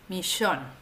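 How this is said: It is said with an Argentine pronunciation.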